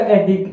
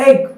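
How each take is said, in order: First: ऐहिक with ai and a sounded h; corrected pronunciation. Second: ऐहिक run together as "e-ik"; everyday mispronunciation. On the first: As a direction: separate ऐहिक into "ai-hik". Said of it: "शुद्ध करने पर ये होगा ऐहिक". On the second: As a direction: glide through ऐहिक, barely sounding the h. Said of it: "क्या बोलते". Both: Shown as a demonstration.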